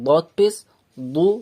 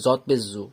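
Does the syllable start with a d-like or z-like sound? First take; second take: d-like; z-like. First: The letter is said with a d-like sound. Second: The letter is said with a z-like sound. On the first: The letter is said from its proper articulation point. "যারা দদের মাখরাজ জানে, তারা একে দদ পেশ দু এটা বলবে" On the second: It is a stand-in for those who cannot yet say it. "যে পা- এর মাখরাজটা উচ্চারণ করতে পারে না, সে জদ বলবে"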